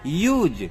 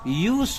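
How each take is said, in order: First: The word ends with a buzzing z sound. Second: The word ends with a hissing s sound. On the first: The word is used as a verb. "मेन verb के रूप में करता हूं, तो इस शब्द का अंग्रेजी में उच्चारण यूज हो जाता है" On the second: The word is used as a noun. "संज्ञा के रूप में करता हूं, तो इस शब्द का उच्चारण यूस होता है"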